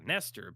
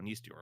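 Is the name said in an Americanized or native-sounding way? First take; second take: Americanized; native-sounding. First: The name is said with plain American sounds. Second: The name is said closer to its native sounds. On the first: "Americanized? We got to go Nestor" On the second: "we could go Nestior, of course"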